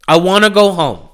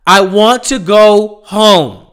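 First: Said in the usual way. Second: Weary plea. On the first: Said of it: "repeated plea, plainer". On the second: Real, not acted. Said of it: "repeated weary plea, first take".

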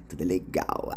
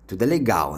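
First: "Tudo é legal" repeated much lower and softer, dropping away; hushed ironic repeat; soft echo. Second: Said in the usual way. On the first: Shown as a demonstration. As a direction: echo "Tudo é legal" under your breath, as an ironic aside.

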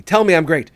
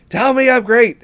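First: Said in the usual way. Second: Higher and louder, insisting; louder demand. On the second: Retold or imitated. Smug therapist demands praise from clients, louder.

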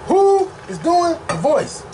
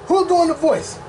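First: "Who" high and drawn out, words spaced; insistent stress. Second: Said in the usual way. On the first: Real, not acted. Fan demanding Shadow's casting, insistent stress on "Who". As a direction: lean hard on "Who" and slow the question.

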